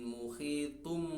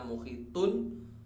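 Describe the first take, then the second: First: The word ends with an m sound. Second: The word ends with an n sound. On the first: This is the form as recited before ba. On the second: This is the underlying form before the rule applies.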